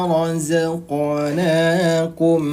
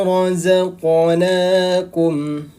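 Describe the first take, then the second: The two takes are said the same way.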